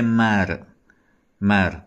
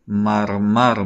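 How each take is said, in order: First: The r is a short, light tap. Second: The r is a heavy, thick sound. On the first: "فارسی زبون بخونیم میگه" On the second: "ما تو کردی اینو مرمر میخونیم"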